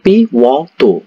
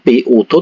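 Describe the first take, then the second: First: The second syllable starts with a 'w' glide. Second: The second syllable starts without a 'w' glide. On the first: The speaker calls it right. "tapi piwoto" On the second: The speaker calls it wrong. "Bukan piuto"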